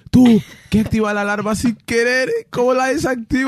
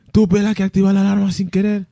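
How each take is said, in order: First: Panicked call, louder and higher; urgent calling. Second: Panicked call repeated, louder and higher; urgent calling. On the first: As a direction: plead for help loudly and high. (súplica urgente, más alta y aguda) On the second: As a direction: plead loudly for help again. (llamada de pánico repetida, más alta) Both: Retold or imitated.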